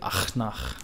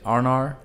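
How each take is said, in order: First: The consonants are harsh and throaty. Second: The consonants are soft and smooth. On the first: "they'll go really rough and say Achnach" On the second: "people go really soft and say Arnar"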